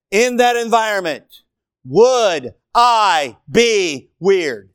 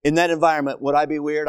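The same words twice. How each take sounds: First: Each word drawn out slowly, louder; preacher to congregation, slow pointed repeat; slow, stressed question. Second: Said in the usual way. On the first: Shown as a demonstration. Slow emphatic delivery. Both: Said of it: "listen carefully".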